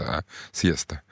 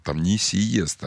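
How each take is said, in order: First: "сиеста" as two syllables, SYE-sta; low, soft "сиеста" with a diphthong; diphthong pronunciation. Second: "сиеста" broken into si-ye-sta, without the diphthong; drawn-out "сиеста" with a separate i; wrong syllabification. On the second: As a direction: slowly split "сиеста" into three syllables, si-YE-sta. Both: Shown as a demonstration. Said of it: "там дифтонг".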